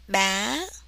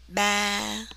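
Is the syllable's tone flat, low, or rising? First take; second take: rising; flat. First: The pitch starts high and rises higher. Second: The pitch stays level and neutral. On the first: "this has an up tone. You start high and you go higher" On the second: "this is a neutral or flat tone, no up, no down"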